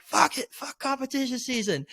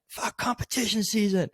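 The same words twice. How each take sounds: First: Much higher, strained mock scream; second, higher-pitched yell after being told to say it again; retold scream, pushed harder. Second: Half-hearted shout of a swear; pitched-up imitation of yelling on a call; retold scream. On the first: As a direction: push it up higher on the repeat. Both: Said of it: "I just had to just scream it".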